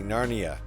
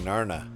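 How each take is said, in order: First: The word has three syllables, with an 'ee' sound. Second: The word has two syllables, without an 'ee' sound. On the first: The speaker calls it wrong. "you can't say Narnia" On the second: The speaker calls it right. "You have to say Narna"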